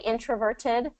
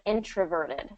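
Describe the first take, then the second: First: The middle consonant is a crisp T sound. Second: The middle consonant is a soft D sound. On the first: "You can absolutely say" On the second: "instead of"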